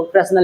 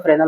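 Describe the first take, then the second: First: "फ्रेस्नेल" with the s sounded; spelling pronunciation. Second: "फ्रेनेल" with the s dropped; silent-s pronunciation. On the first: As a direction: say "फ्रेस्नेल" as written, s before n. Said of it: "English में देखो फ्रेस्नेल लिखा है". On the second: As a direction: say "फ्रेनेल" with no s before n. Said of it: "कुछ लोग फ्रेनेल पढ़ते हैं". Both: Shown as a demonstration.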